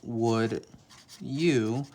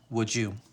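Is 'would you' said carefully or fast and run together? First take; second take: careful; run together. First: Each word is said separately and clearly. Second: The words run together quickly into one.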